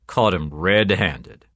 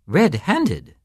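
First: Slow, matter-of-fact cop; cop's report. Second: High questioning echo from a startled priest; dismayed echo. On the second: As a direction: repeat RED-HANDED pitched up, laughter gone. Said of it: "The priest stopped laughing". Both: A narrator's reading.

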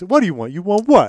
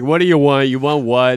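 First: Higher, louder, mocking taunt; taunty. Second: Frustrated. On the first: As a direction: needle him with each word. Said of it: "it could be delivered in a very taunty". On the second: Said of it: "typical hungry and frustrated". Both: Shown as a demonstration.

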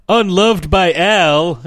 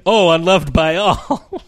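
First: High, loud, drawn-out cartoon reading; Homer. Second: Higher, slow cartoon realization; Homer. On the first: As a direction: read it out slowly as a mock cartoon character, falling at the end. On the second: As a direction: imitate a cartoon character slowly catching on, rising at the end. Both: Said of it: "a Simpsons version of this where Homer".

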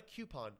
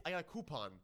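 First: High-pitched "coupon" said KYOO-pon; "coupon" with a y glide after the k. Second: High-pitched, "coupon" said KOO-pon; "coupon" starting like coo, pitched up. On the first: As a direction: say "coupon" starting like the letter Q. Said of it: "get wrecked all the time for saying coupon". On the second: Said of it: "not a coupon". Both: Shown as a demonstration.

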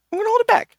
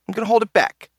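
First: Very high squeaky voice. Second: Said in the usual way. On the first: Pretend.

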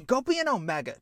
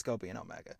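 First: Dismissive brother. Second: Low dismissal. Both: Acted. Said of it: "Pushes him away and says".

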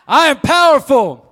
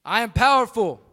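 First: Much louder, slower, higher; booming motivational speech. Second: Loud, high affirmation; booming motivational speech. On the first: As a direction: belt it out even bigger. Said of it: "not good enough". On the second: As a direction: call it out for the crowd to repeat. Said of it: "please repeat after me". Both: Real, not acted.

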